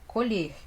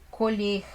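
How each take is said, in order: Both takes have the same delivery.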